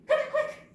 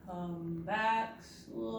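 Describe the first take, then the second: First: High, loud rapid burst; rapid-fire excited call; really fast. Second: Drawn-out, dragging call; slow-motion beckoning; really slow. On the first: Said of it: "Now say really fast". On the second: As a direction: stretch each word out long. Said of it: "say it really slow". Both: Shown as a demonstration.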